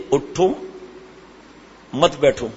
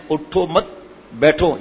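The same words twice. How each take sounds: First: "اٹھو" alone, rising, long pause, then "مت بیٹھو" falling; pause after اٹھو. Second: "اٹھو مت" joined and drawn out, pause, then "بیٹھو"; pause after مت. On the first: Preacher shows listeners an order to stand, pausing after اٹھو. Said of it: "یا میں نے اٹھو مت بیٹھو". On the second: Preacher shows listeners the changed meaning, pausing after مت. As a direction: attach مت to اٹھو, break before بیٹھو. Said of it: "یہ تو میں نے نہیں کہا". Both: Shown as a demonstration.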